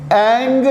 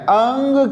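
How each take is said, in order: First: اینگ said as "eng" with a hard g; wrong eng. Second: انگ said as "ang" with the g dropped; ang without g. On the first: Teacher showing the wrong version, "eng" in اینگ. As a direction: give اینگ the "e" vowel and a hard g. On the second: Teacher showing the version without g, "ang" in انگ. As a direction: say انگ with a short "a" and no g. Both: Shown as a demonstration. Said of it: "گاف کی sound میں نہیں لگا رہا".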